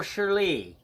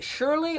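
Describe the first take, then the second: First: Shirley with the stress moved to the final "lee"; stress on last syllable. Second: Shirley with the usual first-syllable stress. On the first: Host teasing Shirley about her name, Shirley stressed at the end. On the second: Host teasing Shirley about her name, Shirley stressed up front. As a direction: lean on the start of Shirley. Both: Shown as a demonstration. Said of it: "I'm just kidding".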